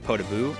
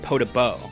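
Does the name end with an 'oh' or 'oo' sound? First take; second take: oo; oh. First: The name ends with an 'oo' vowel. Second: The name ends with an 'oh' vowel. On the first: This is the usual way to say the name. "instead of Podabu" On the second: This is how another person says the name. "he pronounces it Podabo"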